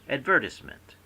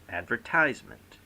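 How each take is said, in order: First: The word is said in a British way. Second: The word is said in an American way. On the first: "The British say"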